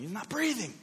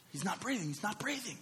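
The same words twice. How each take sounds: First: High-pitched mock yell of alarm; urgent, high cry, held back; retold yell. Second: High, hushed panic; urgent half-whispered alarm, pitched high; panicked wife. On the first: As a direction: re-enact panicked yelling without full volume. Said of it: "I start yelling". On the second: Retold or imitated. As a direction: imitate a frightened mother, voice thin with air. Wife panicking as baby stops breathing.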